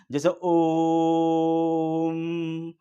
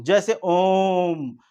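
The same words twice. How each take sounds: First: ओम drawn out very slowly, as a call. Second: Said in the usual way. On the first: Shown as a demonstration. Teacher calling out to show pluta, long ओम. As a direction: call out ओम, holding the vowel. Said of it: "इसको बुलाने में ही use किया जाता है". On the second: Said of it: "ये हो गया प्लुत स्वर".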